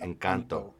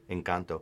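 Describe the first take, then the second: First: The word is said with an American English accent. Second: The word is said with a Spanish accent. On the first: The speaker calls it wrong. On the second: The speaker calls it right.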